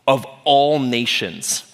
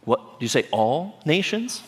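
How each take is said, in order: First: Slow, weighty stress on "all nations"; confident command. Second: Softer, baffled query, rising on "nations"; double-check in mock disbelief, pitch climbing; incredulous question. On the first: Acted. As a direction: declare "all nations" firmly, falling at the end. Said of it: "Jesus is like". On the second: Disciples balk at the huge task.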